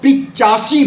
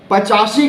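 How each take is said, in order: First: The first vowel is a short 'i'. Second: The first vowel is a short 'a'. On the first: The speaker calls it wrong. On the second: The speaker calls it right.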